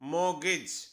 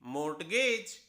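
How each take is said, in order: First: No t sound is heard in the middle. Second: A t sound is heard in the middle. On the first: The speaker calls it right. "दो अक्षर silent हैं, आर और टी" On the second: The speaker calls it wrong. "होना चाहिए मोर्टगेज"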